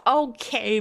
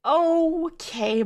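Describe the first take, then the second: First: Said in the usual way. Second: Higher, drawn-out sarcastic okay. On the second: Shown as a demonstration. Rereading his reply, pitched up in disbelief. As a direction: say it with a mocking lift.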